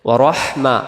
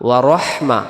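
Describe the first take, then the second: No difference in how they are said.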